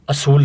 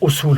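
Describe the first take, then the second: First: The first vowel is an 'a' sound. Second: The first vowel is a 'u' sound. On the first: The speaker calls it wrong. "असूल नहीं होता" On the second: The speaker calls it right. "उसूल होता है, यानी पेश होती है अलिफ के ऊपर"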